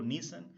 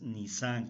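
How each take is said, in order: First: The stress is on the first syllable. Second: The stress is on the second syllable. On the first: The speaker calls it wrong. "a veces digo Nisan, no" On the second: The speaker calls it right. "la pronunciación es Nisan con tilde en la A"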